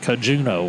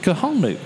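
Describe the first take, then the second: First: The name is said with a J sound. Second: The name is said with an H sound. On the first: The speaker calls it wrong. "Austin was calling it the Kajuno or something like that" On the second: The speaker calls it right. "They actually had a pronouncer in there, pronounced Kahanu"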